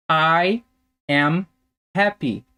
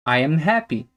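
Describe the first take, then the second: First: A slow model for language learners; slow word-by-word. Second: Said in the usual way. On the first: Shown as a demonstration. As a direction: say each word separately with pauses. Teacher models example slowly, then connected.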